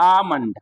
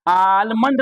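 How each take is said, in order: First: आमंड with no l; silent l. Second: आलमंड with the l said; wrong sounded l. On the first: Teacher giving the correct silent-l आमंड. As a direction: say आमंड, straight from aa to m. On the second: Teacher naming the wrong way to say आलमंड. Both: Shown as a demonstration. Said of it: "आलमंड नहीं बोलना है".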